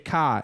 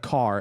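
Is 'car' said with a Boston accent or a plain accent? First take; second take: Boston; plain. First: The word is said in a Boston accent. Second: The word is said in a plain accent. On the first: "every once in a while he'll say car" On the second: "instead of car"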